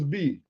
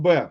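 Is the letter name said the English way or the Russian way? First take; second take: English; Russian. First: The letter name is said the English way. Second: The letter name is said the Russian way. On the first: "In English, it's B" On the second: "In Russian, it's uh, pronounced B"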